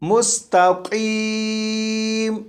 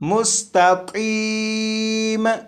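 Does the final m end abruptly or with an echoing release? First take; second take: abrupt; echoing. First: The final m stops abruptly without an echo. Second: The final m is released with a clear echo. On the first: The speaker calls it right. "ये दुरुस्त है" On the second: The speaker calls it wrong. "ये दुरुस्त नहीं, क्योंकि मीम पर कलकला खूब जाहिर हुआ"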